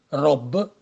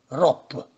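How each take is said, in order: First: The final consonant is a voiced b. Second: The final consonant is a voiceless p.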